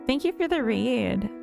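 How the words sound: It is said in a whiny voice.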